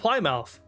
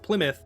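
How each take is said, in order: First: It is pronounced a guessed British way. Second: It is pronounced the American way. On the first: "but in the U K, maybe you call it Plymouth" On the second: "So in America, we at least we call it Plymouth"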